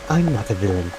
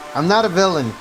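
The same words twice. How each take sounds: First: It is said in a put-on character voice. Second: It is said in the speaker's own normal voice.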